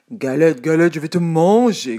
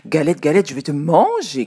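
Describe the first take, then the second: First: Loud growling bear; big bear voice. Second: Loud hungry rabbit call; rabbit's cry. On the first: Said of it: "grogne l'ours de sa grosse voix". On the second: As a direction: shout it like a greedy rabbit. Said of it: "crie le lapin". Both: A narrator's reading.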